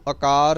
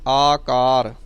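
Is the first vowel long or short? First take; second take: short; long. First: The first vowel is short. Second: The first vowel is long. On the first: The speaker calls it wrong. "ਇਹਨੂੰ ਆਕਾਰ ਨਹੀਂ ਕਹਿਣਾ" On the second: The speaker calls it right. "ਐੜੇ ਨੂੰ ਕੰਨਾ ਲੱਗਾ ਹੋਇਆ ਹੈ"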